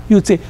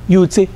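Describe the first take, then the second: No difference in how they are said.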